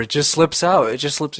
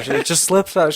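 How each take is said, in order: First: Mom's embarrassed excuse, higher and louder; laughing it off, pitched up high; embarrassed mom repeating her excuse, higher. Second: Sheepish excuse pitched up high and louder; a mock-innocent, higher sing-song; embarrassed mom. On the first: Retold or imitated. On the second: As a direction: mom insisting it's natural, higher and louder. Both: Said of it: "She just kept saying that".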